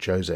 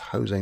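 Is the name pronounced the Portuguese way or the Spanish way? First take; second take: Portuguese; Spanish. First: The name is pronounced the Portuguese way. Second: The name is pronounced the Spanish way. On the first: The speaker calls it wrong. "not Jose, not Portuguese" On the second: The speaker calls it right. "I think it's Jose, because it's Spanish"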